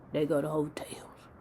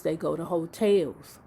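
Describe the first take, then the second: First: Whispered like a secret; hushed gossip whisper. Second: Said in the usual way. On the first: Shown as a demonstration. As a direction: lean in and whisper it.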